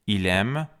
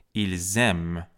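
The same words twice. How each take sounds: First: "ایلم" with l running straight into the vowel, ee-lem; "ایلم" as French il aime, linked by l alone; singular, no z. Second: "ایلزم" with a clear z after the l, eel-zem; "ایلزم" as French ils aiment, s sounded as z; plural liaison z. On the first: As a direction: say "ایلم" with no z sound. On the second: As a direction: buzz the z in "ایلزم". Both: Shown as a demonstration. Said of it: "فرقش رو تو همون تلفظ".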